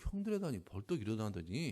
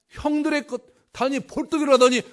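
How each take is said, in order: First: It is told in a reluctant, cautious tone. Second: It is told in an eager, delighted tone. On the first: The teller feels awkward sharing it. "형들한테 얘기하기 좀 그런데" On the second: The teller is proud and eager to share. "막 그래서 막 기뻐하는 거예요"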